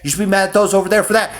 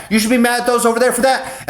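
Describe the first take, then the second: First: Fast, higher, insistent egging-on; a crowd of voices goading him toward anger; mocking nagging voice, rising. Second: Fast, even higher shrill-free goading; the goading voices at their most insistent; mocking nagging voice at its peak. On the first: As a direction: needle him to be mad, pushing harder. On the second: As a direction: egg him on at the top of the build. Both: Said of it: "everybody's like".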